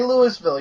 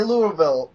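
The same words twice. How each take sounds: First: "Louisville" said as LOO-is-vil; everybody else's pronunciation. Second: "Louisville" said as LOO-uh-vil; local pronunciation. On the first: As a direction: sound the s in "Louisville". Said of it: "we say Louisville". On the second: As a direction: reduce the middle of "Louisville" to "uh". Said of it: "only ones that say Louisville". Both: Shown as a demonstration.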